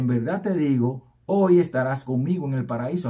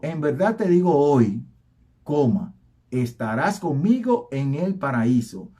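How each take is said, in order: First: The pause comes before the word hoy. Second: The pause comes after the word hoy.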